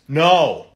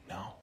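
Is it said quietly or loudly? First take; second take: loudly; quietly. First: It is said loudly. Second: It is said quietly.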